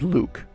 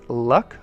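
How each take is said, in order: First: The name has a long vowel, like Luke. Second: The name has a short vowel, like luck. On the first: The speaker calls it right. "but no, his name is Luke" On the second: The speaker calls it wrong. "some people pronounce it Luck"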